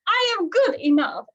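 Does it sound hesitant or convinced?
convinced. It is said with full conviction.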